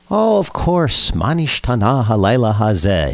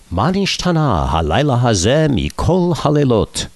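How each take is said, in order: First: A badly faked British accent on Hebrew; attempted British accent. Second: Mock-solemn Seder recitation, higher voice; ceremonial Hebrew recitation. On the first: London friend recalls the Seder question, attempted British accent. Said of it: "he said with a British accent that I can't fake". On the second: Friend addresses the Queen at knighting, ceremonial Hebrew recitation. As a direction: recite it grandly, pitch raised.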